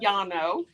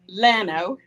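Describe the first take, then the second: First: The double L is said as a Y sound. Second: The double L is said as an L sound. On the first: This follows Spanish pronunciation. "two L's together is pronounced as a Y in the Spanish language" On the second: This is how the locals say it. "That's how they say it down there"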